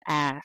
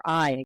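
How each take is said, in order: First: "I" said as "ah"; Southern vowel I. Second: Said in the usual way. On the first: Shown as a demonstration. Linguist naming the Southern sound, "I" as "ah". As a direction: flatten "I" to a glideless "ah". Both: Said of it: "for I again".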